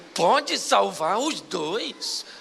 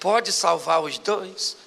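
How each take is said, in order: First: The question sounds doubtful and uncertain. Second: The question sounds plain and confident.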